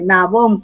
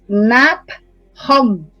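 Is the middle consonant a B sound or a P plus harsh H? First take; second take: B sound; P plus H. First: The middle consonant is a soft b sound. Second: A p is followed by a harsh throaty h. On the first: The speaker calls it wrong. "que está deformado el nombre, Nabón con B, B labial" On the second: The speaker calls it right. "pero es Nap-Hon con H, con sonido de J"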